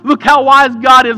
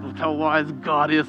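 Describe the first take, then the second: First: It is said with joyful, admiring praise. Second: It is said with grudging, defeated resignation. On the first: The speaker is celebrating God's wisdom. "they say it in a way" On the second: The speaker admits God's wisdom but can do nothing. "is more like"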